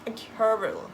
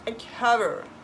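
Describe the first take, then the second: First: It sounds English, with uneven English-like stress. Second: It sounds English, with uneven English-like stress.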